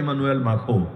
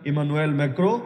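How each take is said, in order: First: The surname is said with a kh sound. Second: The surname is said with a k-r sound. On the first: "কেউ মাখো লেখে" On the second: "কেউ ম্যাক্রো লেখে"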